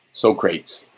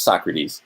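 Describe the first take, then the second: First: "Socrates" said as two syllables, so-KRAYTS, like the word crates; "Socrates" deliberately mangled to rhyme with crates; mispronounced Socrates. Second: "Socrates" said properly in three syllables, SOK-ruh-teez; correcting "Socrates" to SOK-ruh-teez. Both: Shown as a demonstration. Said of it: "It's Socrates".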